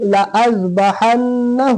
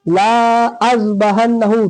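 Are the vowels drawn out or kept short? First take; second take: short; drawn out. First: The vowels are kept short. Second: The vowels are drawn out long. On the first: The speaker calls it right. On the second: The speaker calls it wrong.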